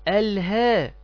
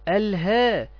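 The two takes are said the same way.

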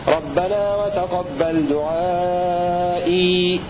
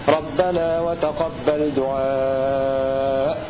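First: The last word ends with a long 'ee' sound. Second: The last word ends without any 'ee' sound. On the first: This is one reciter's reading, keeping the final ya when pausing. "يثبتها البزي وقفا" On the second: This is other reciters' reading, dropping the final ya when pausing. "إذا وقفوا عليها يقفون بالحذف"

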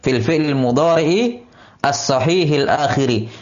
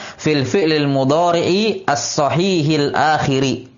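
First: The last word ends in an i vowel. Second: The last word ends in an i vowel.

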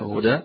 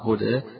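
First: The final vowel is an open a sound. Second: The final vowel is between an open a and e. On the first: This is the reading of most reciters. "قراءة الفتح هدى بالوقف للجمهور" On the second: This is the reading of a particular reciter. "بالتقليد"

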